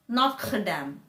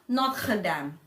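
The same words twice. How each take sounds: Both takes have the same delivery.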